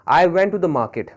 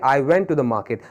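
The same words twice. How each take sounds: First: Very slow, words spaced apart; slow example read. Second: Said in the usual way. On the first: Shown as a demonstration. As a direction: read the sentence slowly for the class. (वाक्य बहुत धीरे पढ़ना) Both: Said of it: "जैसे देख लेते हैं".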